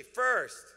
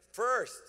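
First: Much louder high call, pressed harder; louder repeated call. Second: Loud, high call for the crowd to repeat; call and response. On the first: Pastor repeating the word with the congregation, louder. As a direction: punch it out the second time. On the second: Pastor leading congregation to repeat, loud call. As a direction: call it out for them to echo. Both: Shown as a demonstration. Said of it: "say it with me".

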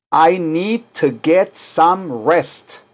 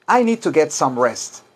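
First: Very slow, careful teacher model; slow model for repeating. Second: Said in the usual way. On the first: Shown as a demonstration. Teacher to class, modelling the sentence slowly. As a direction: lay out each word slowly.

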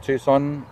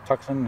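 First: Tucson said TOO-sonn; American pronunciation. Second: Tucson said TUCK-sun; own pronunciation. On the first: Showing viewers one option, Tucson the American way. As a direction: say Tucson with an oo and a silent c. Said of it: "in America you hear people say Tucson". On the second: Offering viewers the other option, Tucson pronounced TUCK-sun. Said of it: "I would pronounce that as Tucson". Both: Shown as a demonstration.

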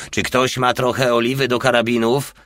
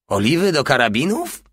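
First: Said in the usual way. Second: High, rising incredulous question; scornful echo. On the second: A narrator's reading. Porta echoing Hajde's request, scornfully. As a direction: throw the question back with mild contempt. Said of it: "powtórzył Porta z pogardliwym grymasem".

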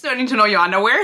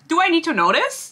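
First: Rushed, louder rhetorical repeat; fast exasperated repeat. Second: High-pitched disbelieving question; exasperated question. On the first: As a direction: rattle it off quickly in annoyance. Repeated reaction, rattled off. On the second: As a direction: ask in stunned disbelief, voice jumping up. Exasperated reaction to underwear detail. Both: Real, not acted.

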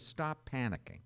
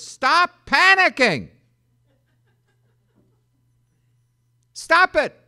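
First: Said in the usual way. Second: Loud, high, slow Stop panicking; shouted command. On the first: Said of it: "always the first word is". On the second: Acted. Angel shouting at frightened people, loud and high. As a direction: bellow it like an angel from heaven. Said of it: "the first word is".

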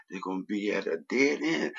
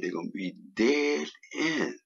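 First: Emphasis on "dead", usual pitch; stress on DEAD. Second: "dead" hit hard in a higher-pitched line; strong stress on DEAD. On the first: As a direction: lean on the word "dead", then let it fall. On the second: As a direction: drive home the word "dead", pitched up and falling. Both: Real, not acted. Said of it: "I put emphasis on the word dead".

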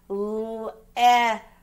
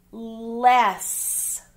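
First: "L-S" as three separate sounds, lll, short e, sss; sounded out. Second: Said in the usual way. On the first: Shown as a demonstration. Teacher dictating a spelling word, "L-S" sounded out sound by sound.

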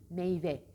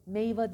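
First: Meyve with a clean final "e"; correct pronunciation. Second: Meyve ending in an open "a", "meyva"; wrong pronunciation. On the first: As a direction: say meyve ending on "e", not "a". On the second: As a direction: show the faulty "meyva" for meyve. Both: Shown as a demonstration. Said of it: "meyve değil".

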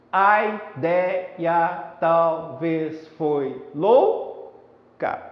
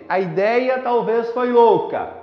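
First: "A ideia talvez foi louca" very slow, every syllable drawn out; syllable-by-syllable scansion. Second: Said in the usual way. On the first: Shown as a demonstration. Teacher counting verse syllables for students, slow and syllabified. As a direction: beat out ai-dei-a-tal-vez-foi-lou, then ca. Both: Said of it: "Pronunciando normalmente".

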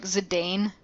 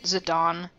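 First: Zidane said as zih-DAYN; Zidane rhyming its end with "Dane"; spelling-based mispronunciation. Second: Zidane said as zih-DAHN; Zidane with an open "ah" in the second syllable; correct game pronunciation. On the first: Admitting how the name looks on screen, Zidane as zih-DAYN. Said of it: "looks like Zidane". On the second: Explaining how Dissidia says the name, Zidane as zih-DAHN. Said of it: "they pronounce it Zidane". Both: Shown as a demonstration.

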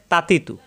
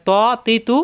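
First: "তা, তি, তু" thin, with open aa, run together; light t. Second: "ত, তি, তু" thick and rounded, syllables drawn apart; heavy emphatic t. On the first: Teacher contrasting two letters, "তা, তি, তু" light. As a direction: say "তা, তি, তু" lightly and briskly. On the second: Teacher contrasting two letters, "ত, তি, তু" thick. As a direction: say "ত, তি, তু" with a full heavy t. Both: Shown as a demonstration. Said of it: "এখানে ব্যবধান দেখুন".

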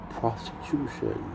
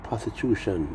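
First: "Prostitution" said slowly and softly; drawn-out word. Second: Said in the usual way. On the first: Shown as a demonstration. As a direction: savour every syllable of "Prostitution". Repeats word, dwelling on it.

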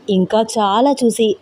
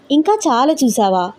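First: Said in the usual way. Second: ఇంకా raised, said as a startled question; questioning echo. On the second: Acted. Wife repeats husband's words back to him, questioning with a raised ఇంకా. Other character echoes it, questioning.

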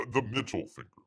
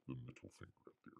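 First: Said in the usual way. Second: Fast, breathy whispered aside. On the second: Real, not acted. Host joking about the cover art to viewers, in a quick whisper.

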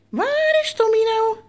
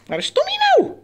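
First: High singsong with a long first word. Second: Very high, quick squeaky question; excited high-pitched hide-and-seek; playful searching call. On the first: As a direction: stretch it out like hide-and-seek. Same call, stretched out. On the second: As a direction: ask it in a tiny squeal for a pet. Calling the hidden pet bird. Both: Pretend.

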